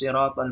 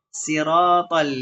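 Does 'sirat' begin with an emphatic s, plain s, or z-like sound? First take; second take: emphatic s; plain s. First: The first sound is an emphatic, heavy s. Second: The first sound is a plain, light s. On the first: This is the usual reading. "Kita kan biasa seperti itu" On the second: This is another accepted reading. "bisa dibaca dengan huruf sin"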